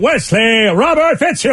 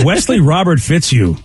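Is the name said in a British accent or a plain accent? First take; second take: British; plain. First: The name is said in a put-on British accent. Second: The name is said in an ordinary accent.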